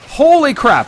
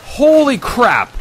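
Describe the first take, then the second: First: Higher, louder disbelief; stunned again. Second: Slow, drawn-out, high gasp of disbelief; stunned holy crap. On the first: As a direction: say it like you still can't believe it. Repeats stunned exclamation. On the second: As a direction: let it sink in slowly. Stunned exclamation on first sight. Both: Real, not acted.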